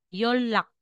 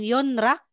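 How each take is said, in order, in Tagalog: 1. Ang gitnang katinig ay tunog l. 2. Ang gitnang katinig ay tunog n. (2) "instead na sasabihin mong Yonrak"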